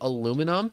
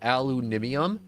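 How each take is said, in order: First: The word ends with a short '-um' sound. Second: The word ends with an extra '-ium' syllable. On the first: This is the speaker's own usual pronunciation. "people like me that say aluminum" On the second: This is how other people say it. "other people that says aluminium"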